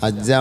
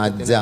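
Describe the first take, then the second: No difference in how they are said.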